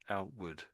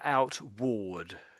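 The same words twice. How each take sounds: First: The second syllable sounds like wood. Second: The second syllable sounds like ward. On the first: The speaker calls it right. "it gets pronounced as outward" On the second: The speaker calls it wrong. "it looks like outward. We don't really say that"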